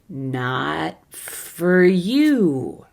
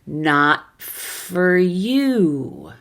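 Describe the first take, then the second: The two takes are said the same way.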